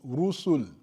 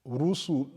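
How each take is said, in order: The two takes are said the same way.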